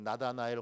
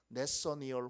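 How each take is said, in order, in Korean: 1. 이 이름은 na-da-na-el처럼 발음해요. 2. 이 이름은 ne-seo-ni-eol처럼 발음해요. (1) "옛날에 읽을 때는 나다나엘 호손 이렇게 읽었는데" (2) "요즘은 원어 발음에 가깝게 읽도록 그렇게 되어 있어서 네서니얼"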